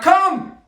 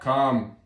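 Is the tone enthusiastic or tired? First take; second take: enthusiastic; tired. First: It is said with high enthusiasm. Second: It is said in a tired way.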